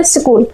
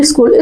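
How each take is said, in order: First: स्कूल starting straight on s, no "i" before it; SCHOOL without leading vowel. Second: Said in the usual way. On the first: Shown as a demonstration. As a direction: say स्कूल as "skool", not "iskool". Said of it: "वो होता है स्कूल". (स्कूल को "इस्कूल" नहीं, सीधे स से बोलें) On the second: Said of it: "स्कूल नहीं होता है".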